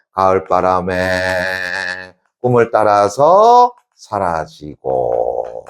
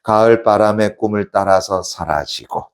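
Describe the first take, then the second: First: Very slow, held phrase endings; drawn-out reading. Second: Said in the usual way. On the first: Shown as a demonstration. Teacher repeats the poem line for class, drawn out. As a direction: stretch each phrase, easing down at the close.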